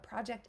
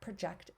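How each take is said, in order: First: The stress is on the first syllable. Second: The stress is on the second syllable. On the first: It names a thing. "a project is a thing, right? A noun" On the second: It names an action. "project is a verb"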